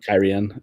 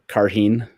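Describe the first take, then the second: First: The name is said like Kyrian. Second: The name is said like Karheen. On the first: The speaker calls it right. "how I used to say Kyrian" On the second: The speaker calls it wrong. "I used to, used to say uh, uh, Karheen"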